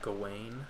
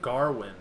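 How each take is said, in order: First: No R sound follows the first vowel. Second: An R sound follows the first vowel. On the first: This is the speaker's own way of saying the name. "I pronounce it like Gawain" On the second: This is how the film's actors said the name. "they pronounced it Garwin"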